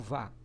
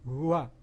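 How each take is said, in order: First: It is a plain Portuguese-style va syllable. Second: It is a Japanese-style vu-a syllable. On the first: The speaker calls it wrong. "não vai ser aquele V do jeito que a gente fala aqui no Brasil" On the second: The speaker calls it right. "Vai ser um V, um né, ajaponesado"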